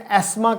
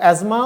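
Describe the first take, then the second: First: The middle has a plain hissing 's' sound. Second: The middle has a buzzing 'z' sound. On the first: This is how it is said in Britain. "Britain में एस्मा कहा जाता है" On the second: This is how it is said in America. "America में इसको एजमा"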